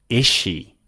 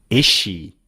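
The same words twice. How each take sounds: The two takes are said the same way.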